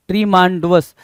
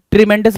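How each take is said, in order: First: ट्रीमांडुअस as "tree-maan-du-us"; misspelling read out. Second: Said in the usual way. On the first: Shown as a demonstration. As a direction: give ट्रीमांडुअस a long "maan" and extra "u". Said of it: "ट्रीमेंडस बनने की कोशिश में वो गड़बड़ हो गया". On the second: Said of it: "तो ट्रीमेंडस बनाओ इसको".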